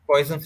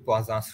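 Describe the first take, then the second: First: The name is pronounced the English way. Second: The name is pronounced the French way. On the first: "যেটাকে বলা হয়" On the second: "actual pronunciation হচ্ছে ... French word তো"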